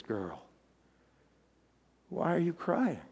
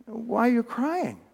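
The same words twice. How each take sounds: First: Low, very soft, gentle voice; tender question. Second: Slow, softer puzzled question; puzzled angels. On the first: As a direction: ask her softly and low, pausing after the first word. Jesus tenderly questions weeping Mary. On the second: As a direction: ask it slowly, mildly baffled by the tears. Angels question weeping Mary. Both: Acted.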